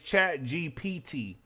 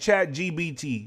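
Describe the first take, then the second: First: The last-but-one letter is said as P. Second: The last-but-one letter is said as B. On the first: The speaker calls it right. "but it's Chat G P T" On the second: The speaker calls it wrong. "I like saying Chat G B T"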